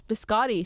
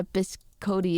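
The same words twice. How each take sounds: First: "biscotti" with an open AH in the middle; pronunciation correction. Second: "biscotti" with a long OH in the middle; mispronunciation. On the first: Shown as a demonstration. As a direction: say "biscotti" as bis-KAH-tee. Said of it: "Google says it's biscotti". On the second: Real, not acted. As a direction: say "biscotti" as bis-KOH-tee. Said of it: "so I pronounced it very wrong".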